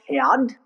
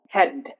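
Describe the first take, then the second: First: The A is pronounced. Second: The A is silent. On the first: The speaker calls it wrong. "It's not pronounced head, that's wrong" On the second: The speaker calls it right. "where A is silent"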